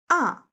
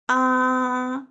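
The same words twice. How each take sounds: First: The pitch falls sharply from high to low. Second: The pitch stays high and level. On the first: "falling down sharply, ... angry sound" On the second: "open mouth sound"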